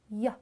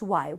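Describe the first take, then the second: First: The letter is said as its bare sound. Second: The letter is said as its full name. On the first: "we pronounce Y" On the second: "in the word we don't pronounce Y"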